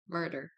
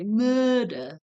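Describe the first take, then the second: First: It is said with an American accent. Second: It is said with an Australian accent. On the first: "or how Americans murder" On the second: "Australians say murder"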